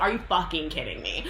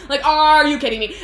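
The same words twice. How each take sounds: First: Said in the usual way. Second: Loud, high, stretched "are"; hammed-up yell of disbelief, leaning on "are"; mock outrage. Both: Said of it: "And so he, like, flips out".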